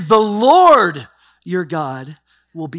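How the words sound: The word 'Lord' is stressed. The focus is on who the Lord is. "and meditate on what Lord is"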